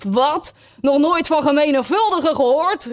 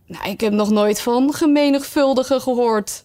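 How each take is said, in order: First: Higher-pitched, incredulous outburst; astonished exclamation. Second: Mildly tentative, puzzled statement; tentative remark. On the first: Griffin amazed at Alice's ignorance, astonished exclamation. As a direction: echo it back in amazed disbelief. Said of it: "hief zijn beide poten vol verbazing op". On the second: Alice venturing that she never heard of the subject, tentative. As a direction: venture it with only light emphasis. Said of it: "waagde Alice te zeggen". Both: A narrator's reading.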